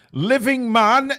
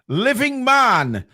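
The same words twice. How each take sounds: First: High, slow, rising call to the winner; excited call. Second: High, slow, falling winner call; excited announcement. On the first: Repeating the winner. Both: Acted.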